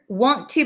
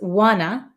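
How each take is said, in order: First: Both words are said separately with a full 'oo'. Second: The words merge, ending in a short 'ah' sound. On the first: "want to becomes wanna" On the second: "it often becomes like a short a sound, like an ah"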